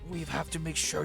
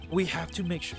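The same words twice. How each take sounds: First: It is said with an attempted German accent. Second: It is said in the speaker's plain accent.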